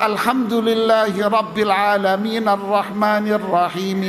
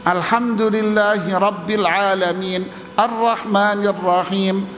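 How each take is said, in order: First: It runs on without a pause after Alamin. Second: It is fast with a short pause after Alamin. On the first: "Ini tidak afdal" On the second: "kalau dia cepat tapi berhenti"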